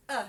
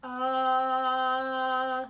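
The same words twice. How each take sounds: First: Short "uh" with a deliberate attack; conscious onset. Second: Sung, loud, sustained "ah" on one note; open sung "ah". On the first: Teacher showing how to begin the syllable, "uh" with a conscious onset. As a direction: push the start of "uh" on purpose. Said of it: "giving it a really conscious uh". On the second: Teacher showing a tricky syllable, open sung note. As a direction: hold an open "Uh" as a steady sung tone. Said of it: "ah is kind of a tricky syllable". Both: Shown as a demonstration.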